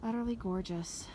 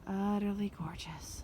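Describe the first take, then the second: First: Said in the usual way. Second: Slow awed whisper. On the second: Real, not acted. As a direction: breathe it out in a whisper. Admiring the view twice.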